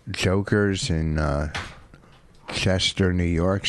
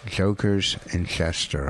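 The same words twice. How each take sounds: First: Joker's in Chester slurred together and mumbled; "Joker's in Chester" run together, slurred. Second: "Joker's in Chester" said slowly, each word clean; every sound of "Joker's in Chester" crisp, no slur; clear careful pronunciation. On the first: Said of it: "trying to say it many times without the slur". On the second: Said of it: "The last time was probably the best". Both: Shown as a demonstration.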